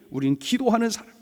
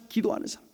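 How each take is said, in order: First: Said in the usual way. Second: Soft whispered repeat; whispered echo. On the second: Real, not acted. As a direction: let the phrase settle in a hush. Whispered echo of previous line.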